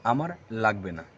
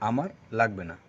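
No difference in how they are said.

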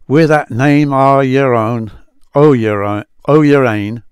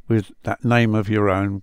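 First: Put-on louder, effortful Scots accent on the old words. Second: Said in the usual way. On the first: Rereading the Psalm phrase for viewers in an amateur Scots accent. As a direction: lean into the Scots vowels, a touch laboured. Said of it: "excuse my accent".

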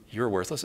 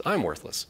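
First: Said in the usual way. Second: "I'm" lifted above "worthless"; stress on I'M. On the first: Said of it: "It doesn't speak to you". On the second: Shown as a demonstration. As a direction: lean on the word "I'm". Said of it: "It says".

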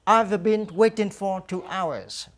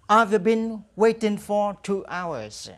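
First: Slow, careful English, repeated; slow drill model. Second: Very slow, clear English answer; slow drill model. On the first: Teacher repeats the answer slowly for students to echo. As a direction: model it once more for the class. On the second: Teacher drills the answer slowly for students to repeat. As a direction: stretch every word for learners to copy. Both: Shown as a demonstration. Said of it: "Now repeat after me".

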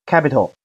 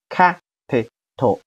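First: Said in the usual way. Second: Capital slowly split into three beats, ca-pi-tal; teacher's slow sounding-out of capital; syllable by syllable. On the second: Shown as a demonstration. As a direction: say capital with gaps between syllables. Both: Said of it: "好，连起来".

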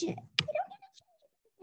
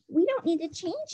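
First: High, soft sing-song on don't; sing-song repeat. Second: Said in the usual way. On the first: Shown as a demonstration. Teacher repeating the rule to students, high and sing-song. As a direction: lilt it up high to reassure.

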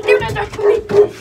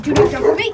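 First: Higher, louder repeat of the warning; firmer warning. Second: Louder command to a dog; firm warning. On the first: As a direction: warn the dog again, more forcefully. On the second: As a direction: warn the dog off, firmly. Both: Real, not acted. Warning the pit bull.

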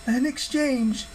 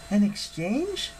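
First: High, slow, drawn-out pronouncement; AN EXCHANGE as a weighty statement, falling at the end; solemn goddess. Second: High, slow, questioning echo; AN EXCHANGE as a question, rising at the end; puzzled girl. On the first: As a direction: goddess revealing her plan, high and slow. Hera answers Jason's question. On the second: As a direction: query it with puzzlement, pitch climbing. Piper repeats Hera's words as question. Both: Acted.

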